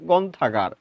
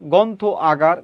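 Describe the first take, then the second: First: The words run together quickly into one word. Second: Two separate words with a break between them.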